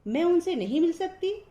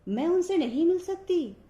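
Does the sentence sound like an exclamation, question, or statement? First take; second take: question; exclamation. First: It is said with a questioning tune. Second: It is said with an exclamatory, surprised tune. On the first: The speaker is asking whether she cannot meet them. "प्रश्नवाचक शब्द ऐसे बोला जाएगा" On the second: The speaker is astonished she cannot meet them. "और विस्मय बोधक"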